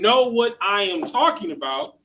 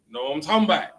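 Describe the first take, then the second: First: Each word is said separately and in full. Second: The words are run together into one stream.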